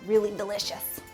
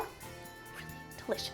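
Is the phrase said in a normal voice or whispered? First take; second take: normal; whispered. First: The phrase is said in a normal voice. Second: The phrase is whispered very quietly.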